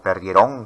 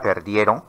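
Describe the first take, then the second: First: The stress is on the final syllable. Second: The stress is on the second-to-last syllable. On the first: The speaker calls it wrong. "no se pronuncian en el discurso oral como" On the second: The speaker calls it right. "porque la mayor fuerza de voz está en la penúltima sílaba"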